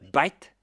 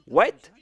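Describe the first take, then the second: First: The word starts with a B sound. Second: The word starts with a W sound.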